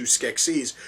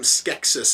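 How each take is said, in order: First: Skeksis with a long EE second vowel, SKEK-seez; pronounced SKEK-seez. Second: Skeksis with a short second vowel, SKEK-sis; pronounced SKEK-sis. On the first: Reviewer giving the opposed version of the name, Skeksis as SKEK-seez. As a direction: say Skeksis with a final Z sound, "-seez". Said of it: "as opposed to". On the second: Reviewer quoting the first character to say it so, Skeksis as SKEK-sis. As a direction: say Skeksis with a final S sound, "-sis". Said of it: "as opposed to Skeksis". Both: Shown as a demonstration.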